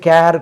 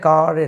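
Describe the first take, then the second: First: The vowel is an 'air' sound. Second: The vowel is an open 'ah' sound. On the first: The speaker calls it wrong. "வாய்ப்பு உண்டு தப்பாக உச்சரிக்கக்கூடியது" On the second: The speaker calls it right. "கார் என்று சொல்கிறோம்"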